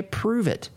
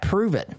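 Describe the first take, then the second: First: A sarcastic "okay, prove it" thrown back; mock the dare back at them; dismissive retort. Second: Smug challenge, pitched up; smug taunt. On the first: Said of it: "I see that from people". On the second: Retold or imitated. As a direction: toss it off like a dare. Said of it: "Or better yet".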